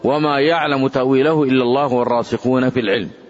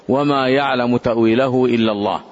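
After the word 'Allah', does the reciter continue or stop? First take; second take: continues; stops. First: The recitation runs on past Allah without stopping. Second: The recitation stops after the word Allah. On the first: Those firm in knowledge also know the interpretation. "قراءة الوصل" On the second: Only God knows the interpretation. "هذه قراءة الوقف"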